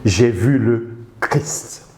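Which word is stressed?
Christ. The stress falls on the word Christ. Christ himself is the focus. "mettre l'accent sur le Christ lui-même"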